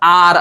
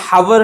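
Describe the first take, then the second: First: The word begins with a vowel, no h. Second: The word begins with an h sound. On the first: The speaker calls it right. "याला आपण आर असं बोलतो" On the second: The speaker calls it wrong. "आर हा हावर नाहीये"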